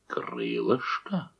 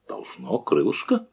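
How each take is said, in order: First: Low, slow menacing growl. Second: Calm, quietly dismissive answer; calm reply. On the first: Lyubeshkin growls at the cook over the meat, low and slow. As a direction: drag the word out in a low growl. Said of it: "зарычал он". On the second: Old Shchukar calmly answers the angry brigade leader, softer. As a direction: shrug it off softly, unbothered. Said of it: "спокойно ответил дед Щукарь". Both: A narrator's reading.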